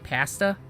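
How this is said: The word is said in a Canadian accent. This is how the speaker's own region says it. "you say pasta"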